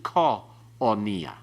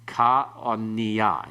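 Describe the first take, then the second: First: The first vowel sounds like a short 'o'. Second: The first vowel sounds like an open 'a'. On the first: The speaker calls it wrong. "It isn't ka onia" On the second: The speaker calls it right. "It stays as a ka"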